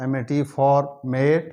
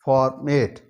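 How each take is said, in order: First: Slow spelling out. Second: Said in the usual way. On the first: Shown as a demonstration. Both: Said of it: "एफ़ओआर for".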